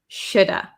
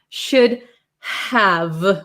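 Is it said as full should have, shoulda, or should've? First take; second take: shoulda; full. First: The H and V drop, ending in an uh vowel. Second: Both words are said fully, with H and V. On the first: "The V kind of becomes silent and we are left with shoulda" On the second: "those consonants need a lot of power"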